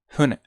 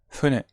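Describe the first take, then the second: Both takes have the same delivery.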